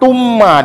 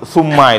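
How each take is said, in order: First: The first sound is a hard 't' sound. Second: The first sound is a soft 'th' sound. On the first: The speaker calls it wrong. "seperti bacaan ta, tumma dibaca. Nah, itu kenapa salahnya?" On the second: The speaker calls it right. "Dalam Al-Qur'an banyak sekali sum, summa itu"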